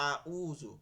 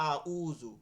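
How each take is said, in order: No difference in how they are said.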